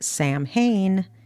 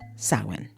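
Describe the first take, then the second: First: The word is sounded out following its spelling. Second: The word is sounded differently from its spelling. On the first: The speaker calls it wrong. "don't pronounce it Samhain. It's a common mistake" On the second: The speaker calls it right. "It's actually pronounced Samhain"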